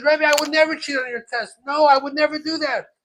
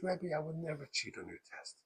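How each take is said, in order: First: Loud, high-pitched denial; indignant protest. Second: Soft, mildly hurt plea; tearful denial. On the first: Accused pupil denying it to rebbe, indignant. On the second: Crying pupil pleading with rebbe, mildly tearful. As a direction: plead it quietly, imitating a crying child. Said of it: "And the kid starts crying". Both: Retold or imitated.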